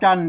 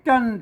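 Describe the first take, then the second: First: The word is said with the ek tone. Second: The word is said with the special tho tone. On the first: "จันเสียงเอก" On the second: "จันเสียงโทพิเศษ"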